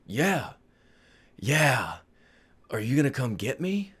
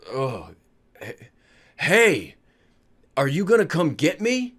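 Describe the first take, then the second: First: Groggy waking dad. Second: Slow, halting, lightly voiced woozy father; waking up with a rising, puzzled question; groggy waking dad. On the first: Retold or imitated. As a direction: repeat it softly, with long gaps. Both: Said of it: "my father does wake up".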